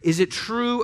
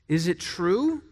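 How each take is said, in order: First: It is said loudly in an angry tone. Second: It is said in a calm, mild tone.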